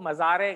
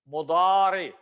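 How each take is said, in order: First: It starts with 'ma' and has a 'z' sound. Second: It starts with 'mu' and has a 'd' sound. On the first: The speaker calls it wrong. "Urdu दान तबका जो है इसको मज़ारे कह रहा होता है" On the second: The speaker calls it right. "मीम के ऊपर पेश है"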